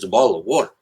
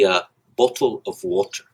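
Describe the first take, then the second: First: It is said in a Southern American accent. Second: It is said in a formal British-style accent.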